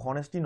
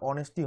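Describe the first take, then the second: First: The word begins with an h sound. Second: The word begins with a vowel sound. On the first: The speaker calls it wrong. "এইটো হনেষ্টি নহয়" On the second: The speaker calls it right. "অনেষ্টি হয়"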